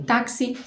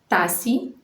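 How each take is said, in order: First: The x is said as a ks sound. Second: The x is said as a plain s sound. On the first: This is the standard, careful pronunciation. "o X com som de K S" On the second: This is informal, less careful speech. "ouve-se apenas o som do S"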